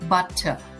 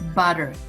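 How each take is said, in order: First: The middle consonant is a clear t sound. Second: The middle consonant is a soft d-like sound. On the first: "instead of butter" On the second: "in the fast speech, we would say butter"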